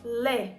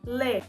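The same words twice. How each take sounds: No difference in how they are said.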